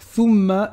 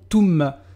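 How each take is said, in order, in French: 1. Le mot commence par un son th. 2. Le mot commence par un son t simple. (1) "C'est un thu" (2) "et non tumma"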